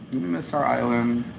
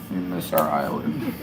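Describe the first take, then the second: First: Said in the usual way. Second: Very low, soft repeat; sunken, hammed-up lament; mock-mournful low voice. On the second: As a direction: drop right down for comic longing. Same line repeated far lower.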